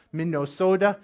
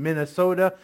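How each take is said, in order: First: Minnesota with long Midwestern o sounds; Midwestern accent. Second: Said in the usual way. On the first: Retold or imitated. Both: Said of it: "talking like that Midwestern accent".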